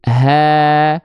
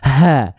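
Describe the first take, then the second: First: The h is light and easy. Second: The h is heavy, pushed from the chest. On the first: The speaker calls it right. "Ringan saja" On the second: The speaker calls it wrong.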